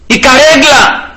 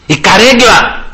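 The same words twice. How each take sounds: First: "Η καρέγκλα" slow and higher, each syllable leaned on; stressed repeat. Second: Said in the usual way. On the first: Shown as a demonstration. Preacher repeating "the chair" to his flock, slow and pointed. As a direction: drag out "Η καρέγκλα" higher to mock their greed.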